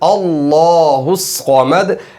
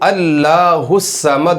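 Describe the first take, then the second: First: The word Allah is said heavy and full. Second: The word Allah is said thin and light. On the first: The speaker calls it right. "लफ्ज़ अल्लाह भी मोटा होगा" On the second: The speaker calls it wrong. "अल्लाहुस्समद नहीं पढ़ा जाएगा"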